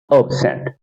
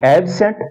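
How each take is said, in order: First: absent said ub-SENT, lower and falling; weak ub, strong SENT in absent; second-syllable stress. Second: absent said AB-sent, ending up; strong AB in absent, rising; first-syllable stress. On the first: Teacher contrasting two forms, stress on SENT. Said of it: "यानी एस पे stress है". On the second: Teacher contrasting two forms, stress on AB. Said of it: "पहले वाले syllable पे stress है". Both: Shown as a demonstration.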